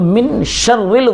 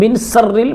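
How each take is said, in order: First: The second word starts with an sh sound. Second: The second word starts with an s sound. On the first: The speaker calls it right. "जब बड़ी शीन है तो" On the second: The speaker calls it wrong. "मिन सर्रिल में छोटी शीन नहीं है"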